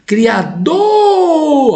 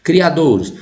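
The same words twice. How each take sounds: First: "Criador" called out, DOR held long and very high; chamando a palavra. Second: Said in the usual way. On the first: Shown as a demonstration. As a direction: hail with "Criador", stretching the final stressed syllable. (chamar "Criador" alongando bem alto a tônica DOR) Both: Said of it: "é o forte".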